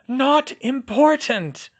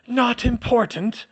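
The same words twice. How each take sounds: First: Firm dismissal. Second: Dismissive. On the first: Hermione repeats, more firmly. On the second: Hermione brushing it aside, in pain. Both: A narrator's reading.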